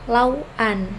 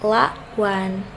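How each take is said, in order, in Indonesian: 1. Pemenggalan suku kata ada setelah huruf w. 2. Pemenggalan suku kata ada sebelum huruf w. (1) "bukan lauan" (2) "pemenggalannya dilakukan di sebelum huruf konsonan itu"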